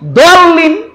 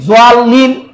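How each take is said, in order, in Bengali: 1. শব্দটি d-এর মতো ধ্বনি দিয়ে শুরু হয়। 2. শব্দটি z-এর মতো ধ্বনি দিয়ে শুরু হয়। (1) "ডাইরেক্ট ডাল বানাই দিচ্ছি" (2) "ডাইরেক্ট জোয়াব কইতেছি"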